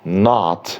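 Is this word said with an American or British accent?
American. The vowel is an open American ah sound.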